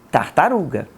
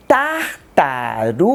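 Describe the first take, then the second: First: Said in the usual way. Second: Slow "tartaruga" split into tar-ta-ru-ga; teacher spacing out "tartaruga" into its four syllables for children. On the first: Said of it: "Qual é a palavra?". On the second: Shown as a demonstration. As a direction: say "tartaruga" slowly with a clear gap after each syllable. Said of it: "pronunciar essa palavra dando espaço entre as sílabas".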